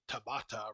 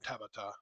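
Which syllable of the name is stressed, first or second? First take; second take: second; first. First: The stress is on the second syllable. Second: The stress is on the first syllable. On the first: The name is said the Spanish way. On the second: The name is said the Japanese way. "with Japanese, you usually emphasize the first syllable, which is just what I got used to"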